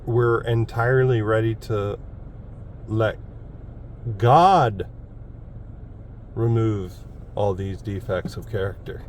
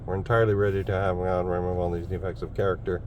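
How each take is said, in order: First: The word God carries the main stress. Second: The word ready carries the main stress. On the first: God is the one who removes the defects. "with emphasis on the word God" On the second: The speaker must remove the defects himself. "I was more focused on the ready"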